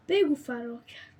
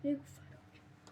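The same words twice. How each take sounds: First: Said in the usual way. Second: Whispered, much softer. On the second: Real, not acted. Gamer repeating his line as a hushed whisper. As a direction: drop it to a secret whisper.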